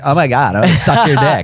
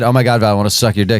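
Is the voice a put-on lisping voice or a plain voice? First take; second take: lisping; plain. First: It is said in a put-on lisping voice. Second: It is said in a plain normal voice. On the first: It is a playful imitation with no consequences. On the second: It is taken as a sincere statement. "if I just said"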